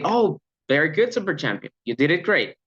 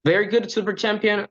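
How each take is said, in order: First: Lively, warm cheering with an "Oh"; enthusiastic praise. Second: Said in the usual way. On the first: Shown as a demonstration. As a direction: cheer the trainee on with energy. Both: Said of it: "It's different to say".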